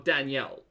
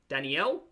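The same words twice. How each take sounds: First: The name is said with two syllables. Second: The name is said with three syllables. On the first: "or two" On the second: "three syllables"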